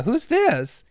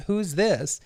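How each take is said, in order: First: Imitated woman on the phone, higher and louder; lightly voiced Samantha. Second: Lightly acted puzzled man on the phone; a slightly raised, hesitant question; lightly voiced Larry. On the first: Samantha asks the caller back, higher imitated voice. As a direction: raise the pitch for her question. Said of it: "And she's like". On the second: Larry asks who is on the line, lightly imitated. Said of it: "and he's like".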